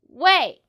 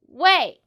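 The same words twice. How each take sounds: First: The pitch falls on the word. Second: The same.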